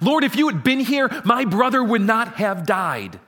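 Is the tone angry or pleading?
angry. It is said in an angry tone.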